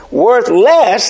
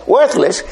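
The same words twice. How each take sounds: First: "worth less" said as two words, stress on "less"; split into two words. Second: Said in the usual way. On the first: Shown as a demonstration. Preacher correcting himself, spelling it out as "worth less". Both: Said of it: "I don't mean worthless".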